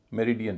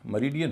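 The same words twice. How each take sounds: First: "मेरिडियन" wrongly with full "me" at the start; wrong pronunciation. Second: "मेरिडियन" as muh-RI-dian; first vowel of "मेरिडियन" reduced to uh; correct pronunciation. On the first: Teacher showing what not to say, wrong pronunciation. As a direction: say "मेरिडियन" with unreduced e. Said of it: "नहीं होगा". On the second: Teacher showing the rule applies too, correct pronunciation. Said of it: "इसका उच्चारण भी". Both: Shown as a demonstration.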